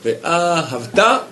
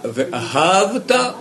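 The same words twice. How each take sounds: First: Ve ahavta slowly, first and third syllables stressed. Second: Ve ahavta slowed, final syllable lengthened; drawn-out stress. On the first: Teacher showing a double stress to the class. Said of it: "il met l'accent sur le un et sur le trois". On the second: Teacher modeling ahavta slowly for the students. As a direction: stretch the last syllable of ahavta. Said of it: "Celui qui dit Ve aha". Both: Shown as a demonstration.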